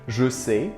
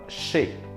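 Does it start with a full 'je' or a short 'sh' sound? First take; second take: full je; short sh. First: It starts with a full 'je' syllable. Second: It starts with a short 'sh' sound. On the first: "je sais would become" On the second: "the je sound most of the time doesn't sound like je, but like sh"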